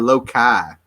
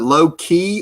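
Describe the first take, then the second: First: The second syllable rhymes with sky. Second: The second syllable rhymes with key. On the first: "or low kai?" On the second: "Is it low key"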